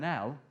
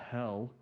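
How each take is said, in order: First: The starting h sound is dropped. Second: The starting h sound is pronounced.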